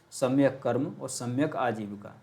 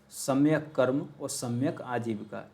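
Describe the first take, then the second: Both takes have the same delivery.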